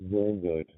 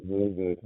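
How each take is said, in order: Both takes have the same delivery.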